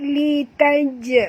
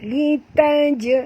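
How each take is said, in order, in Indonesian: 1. Bunyi j di akhir dilepas dengan memantul. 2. Bunyi j di akhir dilepas dengan memantul.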